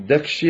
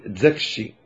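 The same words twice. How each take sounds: First: Said in the usual way. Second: زكشي said "zakshi", z replacing d; Sous pronunciation. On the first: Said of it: "بدل أن يقول د". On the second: Shown as a demonstration. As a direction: swap the d for a buzzed z in زكشي. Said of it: "دكشي يقول زكشي".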